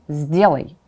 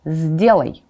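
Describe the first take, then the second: No difference in how they are said.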